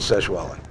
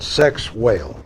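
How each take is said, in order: First: It does not sound like the words sex whale. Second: It sounds like the English words sex whale. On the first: This is how the name is really said. The speaker calls it right. "but that you pronounce it Sexwale" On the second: This is how the spelling reads. The speaker calls it wrong. "which is spelled sex whale"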